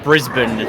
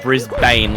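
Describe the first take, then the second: First: The ending is reduced, not said as spelled. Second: The ending is said fully, as it is spelled. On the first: This is how locals say the name. The speaker calls it right. "it is pronounced Brisbane" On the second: This is how outsiders read the name. The speaker calls it wrong. "not Brisbane like how it looks"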